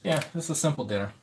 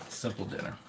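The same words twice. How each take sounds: First: Said in the usual way. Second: Much softer, almost whispered; quiet aside. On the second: Real, not acted. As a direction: mutter it to yourself.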